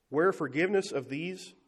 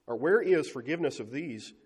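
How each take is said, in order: First: Misread line. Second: Said in the usual way. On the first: Real, not acted.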